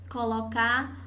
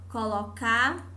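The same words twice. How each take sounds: Both takes have the same delivery.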